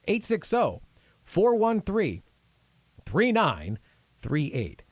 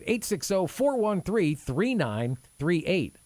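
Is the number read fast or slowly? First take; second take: slowly; fast. First: The number is read slowly. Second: The number is read at normal speed.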